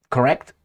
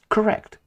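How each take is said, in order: First: Rising, doubtful correct?; questioning. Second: Correct. said much higher and firm; affirming. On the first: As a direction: ask it as if checking: Correct? going up. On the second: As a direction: answer your own question with a pitched-up certain Correct. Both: Shown as a demonstration. Asks then answers himself.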